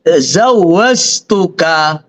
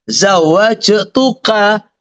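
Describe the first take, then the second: First: It starts with z and has z inside. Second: It starts with z and has j inside. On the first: The speaker calls it wrong. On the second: The speaker calls it right.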